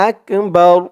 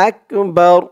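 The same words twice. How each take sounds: The two takes are said the same way.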